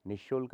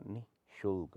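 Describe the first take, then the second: First: निःशुल्क run together as nishulk; no visarga. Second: निःशुल्क split as nih, shulk; sounded visarga. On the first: Teacher shows the error, निःशुल्क without visarga. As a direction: drop the h in निःशुल्क. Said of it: "नहीं होता". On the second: Teacher corrects it, निःशुल्क with sounded visarga. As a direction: breathe out after नि in निःशुल्क. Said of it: "होता है". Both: Shown as a demonstration.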